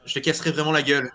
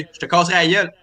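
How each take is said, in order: First: France French. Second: Québécois accent, relaxed and rounded; Quebec French. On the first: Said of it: "for example, would say". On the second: Quebec host showing how Quebecers say it, in a Quebec French accent. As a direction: say it like a Quebecer would. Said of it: "a French from Quebec would say". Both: Shown as a demonstration.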